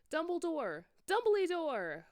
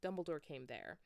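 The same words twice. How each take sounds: First: Much higher, loud frantic calling; yelled. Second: Said in the usual way. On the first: Acted. Scared students calling for Dumbledore, high frantic yell. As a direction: call for him desperately up the stairs. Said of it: "we both yelled".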